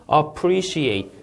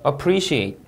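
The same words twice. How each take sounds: First: Very slow "Appreciate," stress on -pre-; word stress demo. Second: "appreciate," stress on -pre-, falling; second model of "appreciate"; word stress repeat. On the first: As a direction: stretch "Appreciate," hitting the second syllable. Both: Shown as a demonstration. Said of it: "이름절 강세 주의해서 읽으셔야".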